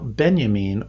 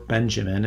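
First: The name is said in a German style. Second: The name is said in an American style.

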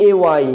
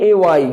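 The two takes are said the same way.

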